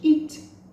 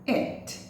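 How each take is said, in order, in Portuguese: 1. A vogal é um som 'ee' tenso. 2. A vogal é um som 'ih' curto e frouxo. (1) "ao invés de it" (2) "é como se fosse um é"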